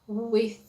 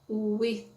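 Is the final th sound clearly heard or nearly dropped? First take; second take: clearly heard; clearly heard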